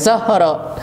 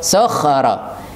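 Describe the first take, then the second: First: The middle consonant is a plain h. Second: The middle consonant is a harsh kh. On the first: The speaker calls it wrong. "Bukan sohoro" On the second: The speaker calls it right. "Kha ya"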